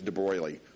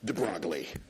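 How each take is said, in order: First: The name is not pronounced the way it is spelled. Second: The name is pronounced exactly the way it is spelled. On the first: "I think it's de Broglie" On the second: "I like de Broglie just because it's very literal"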